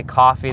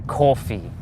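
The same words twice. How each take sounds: First: "coffee" with an open ah in the first syllable. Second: "coffee" with a rounded New York aw. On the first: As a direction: say "coffee" like KAH-fee. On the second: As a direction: say "coffee" like CAW-fee, New York style. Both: Shown as a demonstration. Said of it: "New Yorkers have, uh, they say coffee".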